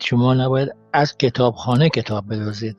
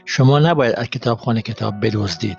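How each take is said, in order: First: The emphasis falls on the word for library. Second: The emphasis falls on the word for steal. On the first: Stealing from other places is acceptable. "which means you are not expected to steal books from the library, but from other places" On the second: You should study the books instead. "I read it this way"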